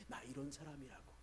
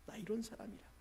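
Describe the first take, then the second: First: Mock boast. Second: A hint of a proud king lifting his voice; mock boast, higher. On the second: Pastor voices Hezekiah's boast again, a bit higher. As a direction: repeat the boast higher, lightly showing off. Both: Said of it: "자랑하고 싶은 마음".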